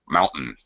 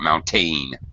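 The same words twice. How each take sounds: First: The second syllable is a quick reduced schwa. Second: The second syllable has a full vowel. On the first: The speaker calls it right. "very reduced sound" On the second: The speaker calls it wrong. "It's not mountain"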